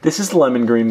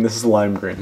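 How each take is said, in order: First: Lemon stressed a little, set against lime. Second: Lime stressed a little, set against lemon. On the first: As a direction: lightly lean on lemon to correct himself. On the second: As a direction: tap lime lightly to contrast it with lemon. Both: Shown as a demonstration.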